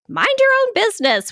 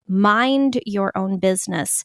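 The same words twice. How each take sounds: First: It is said in a snarky, scolding tone. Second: It is said in a calm, neutral tone. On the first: It is meant to cut or wound. The speaker calls it wrong. "with a degree of snark" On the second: It reminds one to tend one's own duties. The speaker calls it right. "in a normal way, with a normal emphasis"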